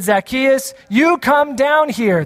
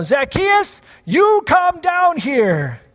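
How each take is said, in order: First: Calling out. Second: High, slow call up into the tree. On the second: Pastor shows how the line is usually shouted, slow high call. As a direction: stretch it out like calling someone down from a tree. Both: Shown as a demonstration. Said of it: "usually you shout that".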